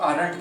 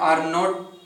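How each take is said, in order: First: It is said as one contracted word. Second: It is said as two full separate words. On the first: "short form करेंगे तो आरंट कहेंगे" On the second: "long form में"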